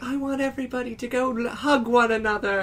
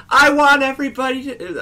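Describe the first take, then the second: First: Much higher, softer dreamy hippie plea. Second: Much higher and louder hippie plea. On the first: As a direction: coax the crowd gently like her. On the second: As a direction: overdo her dreamy call to the crowd. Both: Retold or imitated. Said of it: "I'm being louder than she was".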